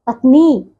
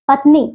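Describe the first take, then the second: First: Said in the usual way. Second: पत्नी with a short final i; mispronounced पत्नी. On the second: Shown as a demonstration. Teacher shows pupils the error, short "i" ending पत्नी. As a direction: clip the end of पत्नी, "patni". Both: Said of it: "नहीं".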